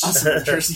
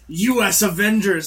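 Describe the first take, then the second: First: The first part is said as one word. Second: The first part is spelled out as letters.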